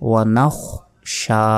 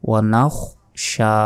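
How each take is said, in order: The two takes are said the same way.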